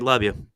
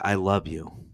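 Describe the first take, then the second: First: It is said casually and quickly. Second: It is said with heartfelt meaning.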